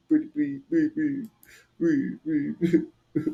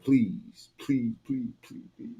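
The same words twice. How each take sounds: First: Pleading with a high break on one please; mock whimper of a scared man; lightly voiced terrified plea; imitating the begging. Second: Quiet mock begging. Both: Shown as a demonstration. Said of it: "This is how they sound".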